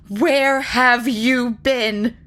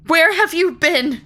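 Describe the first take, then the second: First: Slow, loud, higher scolding. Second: High, loud cry of shock; Molly cries out at the long-lost unicorn. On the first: Molly scolds the unicorn like a strayed milk cow, slow and loud. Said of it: "scolding her as though she were a strayed milk cow". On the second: Molly cries out at the unicorn, loud and high. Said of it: "she cried". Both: Acted.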